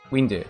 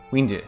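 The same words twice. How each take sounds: No difference in how they are said.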